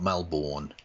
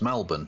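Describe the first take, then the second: First: Melbourne is said with an American pronunciation. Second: Melbourne is said with an Australian pronunciation. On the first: The speaker calls it wrong. "not Melbourne" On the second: The speaker calls it right. "Australians get annoyed with Americans because it's Melbourne"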